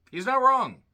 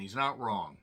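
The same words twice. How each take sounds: First: Much higher, louder "He's not wrong"; emphatic repeat. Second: Said in the usual way. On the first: Real, not acted. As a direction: hammer home "He's not wrong" with a high, loud rise and fall. Repeats his point for emphasis.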